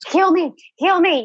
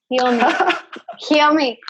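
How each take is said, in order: First: It sounds grasping, urgent and needy. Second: It sounds open, receptive and welcoming. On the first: The healing is being grabbed for. "where you're grabbing" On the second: The healing is welcomed and allowed to come. "like big open arm, like, yes"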